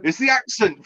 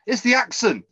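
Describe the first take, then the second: First: High, teasing "It's the accent." again with more push; teasing jab repeated. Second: Teasing jab. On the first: Host teasing Gabe about his accent, pushing the jab. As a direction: rub it in. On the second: Teasing co-host. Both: Real, not acted.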